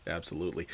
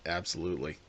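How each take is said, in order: Both takes have the same delivery.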